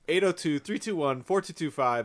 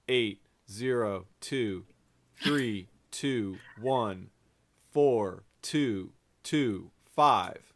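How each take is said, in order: First: The number is said at normal speed. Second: The number is said slowly.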